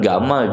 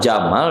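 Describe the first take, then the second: First: The name begins with a hard g sound. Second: The name begins with a j sound. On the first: It reflects the local pronunciation. "Orang Mesir itu nggak bisa menyebut Jim" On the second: It follows the written form. "ditulis nama"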